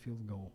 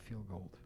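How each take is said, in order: First: The second word ends without a d sound. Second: The second word ends with a d sound. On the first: The speaker calls it right. "it's field goal" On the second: The speaker calls it wrong. "Not field gold"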